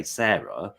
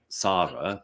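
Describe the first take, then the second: First: "Sarah" as SAIR-uh, vowel as in "air". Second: "Sarah" as SAH-ruh, long open ah; Sarah without H. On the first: Telling co-host how British say the H spelling, "Sarah" as SAIR-uh. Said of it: "if it had a H". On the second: Telling co-host how British say her name, "Sarah" as SAH-ruh. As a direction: say "Sarah" with the vowel of "car". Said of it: "if the name is spelt your way". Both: Shown as a demonstration.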